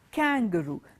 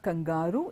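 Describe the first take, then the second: First: The stress does not fall on the middle syllable. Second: The stress falls on the middle syllable. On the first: The speaker calls it right. "The stress does not fall on the word kangaroo. It's not on G A R" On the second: The speaker calls it wrong. "It's not kangaroo"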